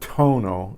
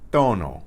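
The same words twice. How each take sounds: First: It is said with an English-style aspirated sound. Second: It is said with a Spanish-style unaspirated sound. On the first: The speaker calls it wrong. "it's not tono" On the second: The speaker calls it right. "it's tono"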